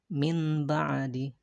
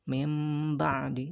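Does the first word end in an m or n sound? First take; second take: n; m. First: The first word ends in a plain n sound. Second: The first word ends in a nasal m sound. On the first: The speaker calls it wrong. "bukan min ba'di" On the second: The speaker calls it right. "tapi mim ba'di"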